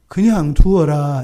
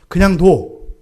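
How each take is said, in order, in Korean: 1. 부드럽고 온화하게 말합니다. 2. 엄하고 강하게 말합니다. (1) "이게 아니에요" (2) "굉장히 강한 어조예요"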